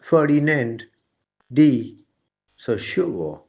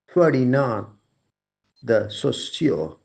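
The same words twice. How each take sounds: First: The name is said with English-style sounds. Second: The name is said with French-style sounds. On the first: The speaker calls it wrong. "I pronounced the name as" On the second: The speaker calls it right. "a more French way of pronouncing the name"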